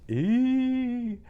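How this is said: A light, hooty vowel in head voice. The speaker calls it right. "so that's the texture we're going for"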